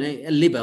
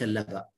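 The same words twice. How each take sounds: First: The first syllable has an 'i' vowel. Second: The first syllable has an 'a' vowel. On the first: The speaker calls it right. "إذن اللبا ... أنها بالكسرة" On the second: The speaker calls it wrong. "وليس اللبا"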